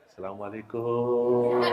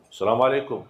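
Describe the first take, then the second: First: The greeting sounds soft and gentle. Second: The greeting sounds harsh and forceful.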